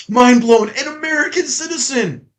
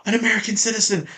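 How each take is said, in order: First: High-pitched sarcastic astonishment; hammed-up mind-blown reveal; mock amazement. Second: Said in the usual way. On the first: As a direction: act stunned by the obvious. Sarcastic amazement at obvious fact.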